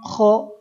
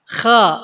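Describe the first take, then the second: First: The vowel is a rounded 'o' sound. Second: The vowel is an open 'a' sound. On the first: The speaker calls it wrong. "banyak yang jadi kho, banyak yang jadi monyong" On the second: The speaker calls it right. "sambil ngebuka ya"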